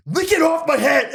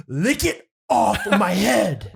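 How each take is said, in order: First: Much higher, louder laughing repeat; shrill mock counselor. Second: Slow, higher, louder command; slow demanding counselor. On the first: Retelling the counselor's order to the podcast host, hammed-up squeal. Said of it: "What a weird response". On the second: Retold or imitated. Counselor ordering Kyle to lick off mayonnaise, slow mock command. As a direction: drag out every word like an absurd order. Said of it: "He goes".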